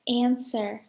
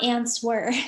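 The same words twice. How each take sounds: First: The W is silent in the word. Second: A W sound is pronounced in the word. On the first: The speaker calls it right. "The silent letter is actually W. We say it like this" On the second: The speaker calls it wrong.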